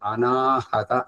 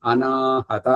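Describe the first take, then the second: First: The word is said with four syllables, including 'ha'. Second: The same.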